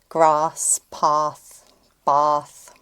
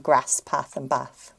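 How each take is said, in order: First: The vowel is a long southern 'ah'. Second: The vowel is a short northern 'a'.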